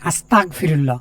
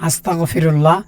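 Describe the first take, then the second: First: The consonant before 'fi' is a hard q. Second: The consonant before 'fi' is a throaty gh. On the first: Asks God to make one a disbeliever. The speaker calls it wrong. "গয়নের জায়গা কাপ যদি বলি" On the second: Asks God for forgiveness. The speaker calls it right. "হে আল্লাহ আমাকে মাফ করো"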